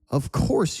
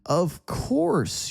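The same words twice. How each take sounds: First: It is said at a normal, quicker pace. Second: It is said at a slower, more careful pace.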